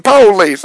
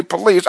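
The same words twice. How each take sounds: First: "police" said slowly with a hard stress on the first syllable, PO-lice. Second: Said in the usual way. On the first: Shown as a demonstration. Correcting his own word to viewers, "police" stressed PO-lice. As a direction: drag out "police" as PO-leece, leaning on the PO. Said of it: "notice I didn't say police". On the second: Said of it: "I'm saying police".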